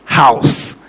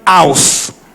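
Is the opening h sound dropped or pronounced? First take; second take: pronounced; dropped. First: The opening h sound is clearly pronounced. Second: The opening h sound is dropped. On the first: The speaker calls it right. "It is house" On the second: The speaker calls it wrong. "is not house"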